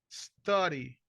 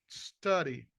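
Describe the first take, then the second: No difference in how they are said.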